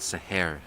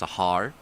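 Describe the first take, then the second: First: The name is said with Urdu-style pronunciation. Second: The name is said with English-style pronunciation. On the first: The speaker calls it right. "but the Urdu pronunciation" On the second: The speaker calls it wrong. "The anglicized pronunciation"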